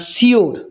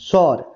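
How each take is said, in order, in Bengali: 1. এটা 'shi-oor' এর মতো করে বলা হয়, দুই সিলেবলে। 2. এটা 'shor' এর মতো করে বলা হয়, এক সিলেবলে। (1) "এটা বলে, কিন্তু শিওর এটা সঠিক উচ্চারণ নয়" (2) "এর সঠিক উচ্চারণ হচ্ছে সর"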